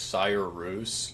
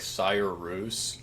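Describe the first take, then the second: First: The name is said with Icelandic-style sounds. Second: The name is said with Icelandic-style sounds.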